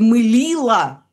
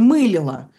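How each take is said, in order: First: The stress falls on the second syllable. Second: The stress falls on the first syllable. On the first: This is the older way of saying it. "ударение куда под «мылило»" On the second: This is the current way of saying it. "сейчас мы так не скажем, мы скажем «мылило»"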